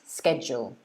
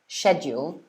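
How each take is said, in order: First: The word begins with a 'sk' sound. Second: The word begins with a 'sh' sound. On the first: This is the American pronunciation. "or sked" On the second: This is the British pronunciation. "It's either shed"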